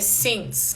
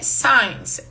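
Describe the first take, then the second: First: The vowel sounds like 'sit'. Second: The vowel sounds like 'eye'. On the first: The speaker calls it right. "é since" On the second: The speaker calls it wrong. "Não é since"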